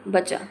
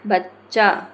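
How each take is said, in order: First: बचा said briefly with a single च; short sound. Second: बच्चा split as बच-चा, slow with held आ; long, doubled sound. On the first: Teacher giving an example of length, बचा kept short. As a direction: keep बचा short and unstretched. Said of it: "समय की मात्रा कम है". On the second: Teacher showing length, बच्चा slowly drawn out. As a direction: stretch बच्चा over a doubled च. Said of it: "ऐसे". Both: Shown as a demonstration.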